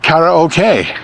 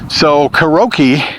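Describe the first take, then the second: First: It is said with a Japanese pronunciation. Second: It is said with an English pronunciation. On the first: "The Japanese, who invented the whole thing, pronounced it" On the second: "is how I've always pronounced it"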